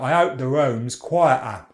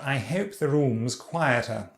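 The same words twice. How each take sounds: First: A glottal stop replaces the T in quieter. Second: The H and the T are both clearly sounded. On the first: "quieter is a back diphthong and glottal stop there for the T" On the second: "Now moving on to R P"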